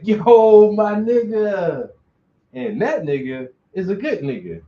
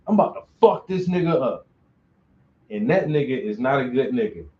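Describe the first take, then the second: First: Much louder, higher, stretched-out happy greeting; friendly greeting. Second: Fast, pushed threat, then dropping flat; hostile tone. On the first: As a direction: call out to your best friend, slow and glad. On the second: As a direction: spit it out like you mean trouble. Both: Shown as a demonstration. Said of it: "the tone in your voice and the inflection lets you know".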